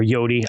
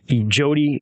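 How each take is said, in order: First: The name begins with a Y sound. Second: The name begins with a J sound. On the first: "I like Yodi, a little better personally" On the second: "Jody or Yodi"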